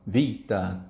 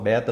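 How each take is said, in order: First: The word begins with a v sound. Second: The word begins with a b sound. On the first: This is how the letter is said in Greek. The speaker calls it right. "como cada letra é dita, então tem alfa, vita" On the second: This is how the letter is said in Brazilian math and physics. The speaker calls it wrong. "só que não é bem assim o som delas"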